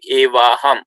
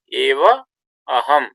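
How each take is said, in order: First: The two vowels merge into one long vowel. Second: The two words are said apart, vowels separate. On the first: "as if there is just one syllable here" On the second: "when we separately say"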